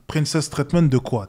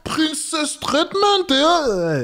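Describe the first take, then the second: First: Dry, mocking retort, own pitch; scornful. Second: "Princess treatment" slow, much higher and airy; mock girly voice. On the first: Real, not acted. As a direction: spit "Princess treatment de quoi" back with contempt. Scornfully throwing the phrase back. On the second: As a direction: stretch "Princess treatment" out in a dreamy high girl voice. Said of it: "elles vont dire".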